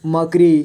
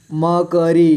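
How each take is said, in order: First: Said in the usual way. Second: मकरी as म, क, री; letter by letter. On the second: Shown as a demonstration. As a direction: give क its own vowel in मकरी. (मकरी को तोड़कर: म, क, री) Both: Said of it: "थोड़ा फास्ट पढ़ेंगे".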